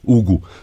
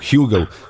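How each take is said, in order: First: It is said with a Portuguese pronunciation. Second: It is said with an English pronunciation.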